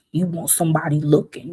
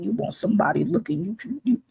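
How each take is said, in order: First: Said in the usual way. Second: Higher, softer and fast, teasing rise on looking; mocking singsong. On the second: Shown as a demonstration. Mocking busty women who want attention, teasing singsong. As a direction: tease it lightly like a taunt.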